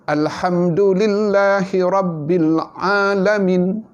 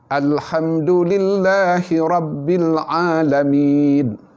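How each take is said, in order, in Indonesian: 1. Vokal terakhir dibaca pendek, tanpa dipanjangkan. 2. Vokal terakhir dibaca sedang. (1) "Maka semuanya kontot-kontot, tak ada mad langsung" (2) "Empat harakat. Memadai"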